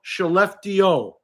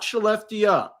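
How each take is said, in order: First: The name is said with Swedish-style pronunciation. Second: The name is said with English-style pronunciation. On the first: The speaker calls it right. "please, it's called" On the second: The speaker calls it wrong.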